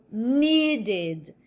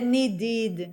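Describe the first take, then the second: First: "needed" as NEE-ded, long first vowel; stress on first syllable. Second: "needed" wrongly as nee-DID; stress on last syllable. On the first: Teacher keeps the original strong syllable, NEE-ded for "needed". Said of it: "Eu mantenho a sílaba forte". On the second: Teacher shows what not to say, "needed" stressed nee-DID. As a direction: push the second syllable of "needed". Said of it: "Eu não vou dizer". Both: Shown as a demonstration.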